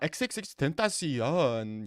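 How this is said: It is said in a put-on Swedish accent.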